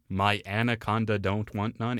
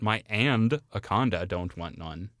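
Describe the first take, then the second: First: The word begins with a plain 'an' sound. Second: The word begins with an 'and' sound. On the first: The speaker calls it right. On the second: The speaker calls it wrong.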